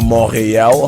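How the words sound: It is pronounced the French way.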